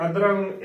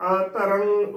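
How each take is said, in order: First: ਅਧਰੰਗ as adrang, all in one piece; mistaken joined pronunciation. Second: ਅਧਰੰਗ as a-tarang, opening a on its own; correct separated pronunciation. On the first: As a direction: join ਅਧਰੰਗ into two syllables with a d. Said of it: "ਇਕੱਠਾ ਕਰਾਂਗੇ". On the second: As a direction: split ਅਧਰੰਗ into a, ta, rang. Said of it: "ਉਚਾਰਨ ਕਰਨਾ ਹੈ". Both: Shown as a demonstration.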